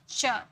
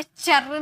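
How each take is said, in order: First: चर as "chuh", the r dropped; half r. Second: चर with the r fully sounded, "charr"; wrong full r. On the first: Teacher models the right ending, half R. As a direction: say चर with only a trace of R. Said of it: "आधा र". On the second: Teacher warns against this ending, full R sounded. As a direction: say चर with a clear R at the end. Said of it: "चर नहीं बोलेंगे". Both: Shown as a demonstration.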